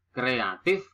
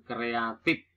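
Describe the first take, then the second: First: "Kreatif" with a final f; standard pronunciation. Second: "kreatif" with p for f; nonstandard pronunciation. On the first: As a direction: end "Kreatif" on an f. (ucapkan "Kreatif" dengan f) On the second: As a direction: end "kreatif" on a stopped p. (ucapkan "kreatif" menjadi kreatip) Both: Shown as a demonstration. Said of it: "bukan kreatif".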